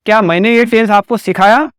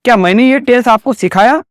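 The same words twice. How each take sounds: The two takes are said the same way.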